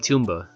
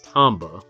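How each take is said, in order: First: The first syllable sounds like 'tomb'. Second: The first syllable sounds like 'Tom'. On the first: The speaker calls it wrong. "you're not pronouncing the word tomb and then ba" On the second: The speaker calls it right. "Tom is a name, and then ba"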